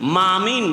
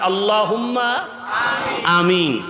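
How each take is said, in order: First: The word is run together as 'mamin'. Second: The word 'amin' is said separately, without m. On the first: The speaker calls it wrong. "না মামিন" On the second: The speaker calls it right. "তাহলে আল্লাহুম্মা আমিন"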